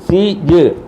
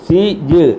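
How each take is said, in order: No difference in how they are said.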